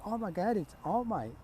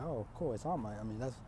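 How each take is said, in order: First: High-pitched fan gasp; excited. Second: Low, soft, underwhelmed reaction; unimpressed. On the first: Classmates see their hero walk in, excited. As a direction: gush in starstruck surprise. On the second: Three students see the hero arrive, unimpressed. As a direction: shrug it off quietly. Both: Acted.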